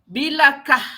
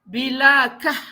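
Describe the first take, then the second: The two takes are said the same way.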